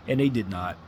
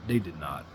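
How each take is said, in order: First: Said in the usual way. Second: Low, quiet repeat. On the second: Real, not acted. Disappointed fan on the Mavericks, low and soft. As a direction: drop lower and softer on they did not.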